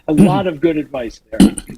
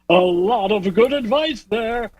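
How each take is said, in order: First: It is said in an ordinary speaking voice. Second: It is said in a put-on broadcast announcer voice.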